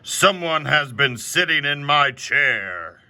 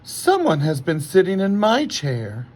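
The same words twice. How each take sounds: First: It is said in a great big voice. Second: It is said in a middle-sized voice.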